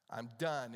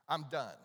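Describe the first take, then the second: First: Despairing Elijah, lower. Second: Despairing Elijah. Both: Retold or imitated. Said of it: "And you can hear the emotion".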